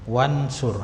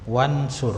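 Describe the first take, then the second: First: The opening vowel is dropped, joined to wa. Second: The same.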